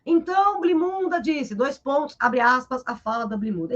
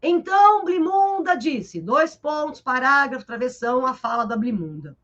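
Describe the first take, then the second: First: Dictating the marks, abre aspas spoken plainly; reading out punctuation. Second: Dictating each mark, Blimunda disse then pauses; reading out punctuation. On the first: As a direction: read the quote marks aloud like a dictation. (ditando as aspas em voz alta) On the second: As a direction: spell out the punctuation word by word. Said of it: "Ele não vai colocar assim". (ditando a pontuação em voz alta) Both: Shown as a demonstration.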